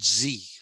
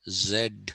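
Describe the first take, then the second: First: The letter name ends in a vowel sound. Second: The letter name ends in a consonant sound. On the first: "the Americans... call it Z... it also has developed a vowel sound towards the end" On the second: "starting with a consonant sound and ending with um, a consonant sound Z"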